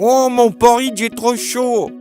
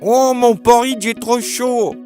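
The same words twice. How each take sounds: First: A squeaky, high voice, like Baby Bear. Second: The same.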